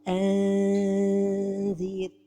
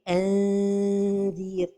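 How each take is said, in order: First: The n is stretched out like a long vowel. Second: The n is hidden, with the tongue just near the palate. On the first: The speaker calls it wrong. "trop éloigner le bout de la langue du palais supérieur" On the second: The speaker calls it right. "la prononciation correcte"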